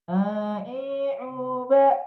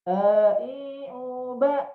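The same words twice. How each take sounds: First: "A, i, u, ba" pushed through the nose; blocked-nose, nasal syllables. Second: Said in the usual way. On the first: Shown as a demonstration. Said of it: "yang ngirung atau lewat jarum hidung". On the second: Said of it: "beda atau sama".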